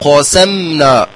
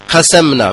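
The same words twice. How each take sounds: First: The opening q sound is heavy and emphatic. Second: The opening q sound is light, not emphatic. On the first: The speaker calls it right. "ق ثم نرقق السين" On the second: The speaker calls it wrong. "بترقيق القاف وهو خطأ"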